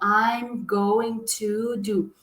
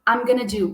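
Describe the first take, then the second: First: Going to is said fully, word by word. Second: Going to is squeezed quickly into gonna. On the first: "eles não vão acabar falando" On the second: "Vai acabar saindo I'm gonna do. Muito rápido"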